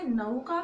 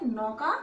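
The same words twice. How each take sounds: First: नौका with a gliding "nau", like न-औ; regional pronunciation. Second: नौका with a single open "ɔ", as "nɔka"; standard pronunciation. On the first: Teacher noting how some places say नौका. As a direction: say नौका as "nəuka", the औ as a diphthong. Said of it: "किसी किसी जगह पे इसे नौका भी बोलते हैं". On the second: Teacher giving students the accepted नौका. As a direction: say नौका with a pure open औ, no glide. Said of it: "आप इसे नौका उच्चारण कर सकते हैं". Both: Shown as a demonstration.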